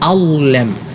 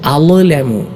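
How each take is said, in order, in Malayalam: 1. മധ്യത്തിലുള്ള വ്യഞ്ജനത്തിന് പ്രതിധ്വനിക്കുന്ന കുലുക്കമില്ല. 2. മധ്യത്തിലുള്ള വ്യഞ്ജനത്തിന് പ്രതിധ്വനിക്കുന്ന കുലുക്കമുണ്ട്. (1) "ഇങ്ങനെയാണ് ഉച്ചരിക്കേണ്ടത്" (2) "ലായിൽ അല്പം ഖൽഖല എന്ന ആ ഒരു സിഫത്ത് നൽകിക്കൊണ്ട്"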